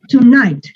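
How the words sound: The pitch falls at the end of the word. The speaker calls it right. "Tonight, para abajo"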